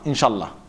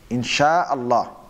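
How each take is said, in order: First: Allah runs into Insha with no glottal catch. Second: A glottal catch separates Allah from Insha. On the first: The speaker calls it wrong. "That's actually wrong" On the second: The speaker calls it right. "It should be"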